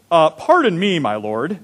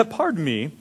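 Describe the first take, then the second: First: Mock British. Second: Said in the usual way. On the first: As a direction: play Gideon as a lightly hammed-up Brit. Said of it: "Maybe he was British". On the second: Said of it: "I don't know if that's how he talked".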